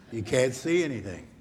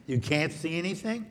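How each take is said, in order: First: Falling tune with weight on see, settled; confirming statement. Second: Rising tune on anything, a surprised question; questioning echo. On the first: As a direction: state it as fact, landing on "see". Confirms child's words as statement. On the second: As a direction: ask it back, "anything" lifting up. Repeats child's words as question. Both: Shown as a demonstration.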